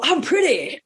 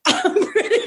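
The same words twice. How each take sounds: First: Boxer boast. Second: Laughing higher boast. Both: Pretend. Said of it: "I used to dress up like Muhammad Ali".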